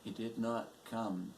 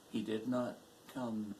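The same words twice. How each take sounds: The two takes are said the same way.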